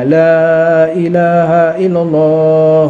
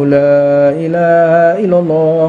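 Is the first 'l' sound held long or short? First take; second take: long; long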